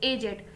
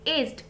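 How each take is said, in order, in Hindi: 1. यह शब्द दो अक्षरों में बोला जाता है। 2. यह शब्द एक अक्षर में बोला जाता है। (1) "किसी बुजुर्ग के सेंस में ... प्रोनाउंस भी करेंगे एजेड, नॉट एज्ड" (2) "जब सिर्फ उम्र के सेंस में आप इसको यूज करते हो ... तो हम सिर्फ एज्ड बोलते हैं"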